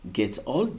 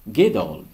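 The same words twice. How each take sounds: First: The t is pronounced as a clear t. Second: The t is pronounced as a soft d. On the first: "get old devient" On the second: "au lieu de T, on prononce D"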